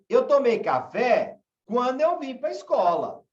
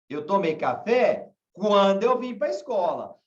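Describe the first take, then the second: First: The sentence has a changed, marked intonation. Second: The same.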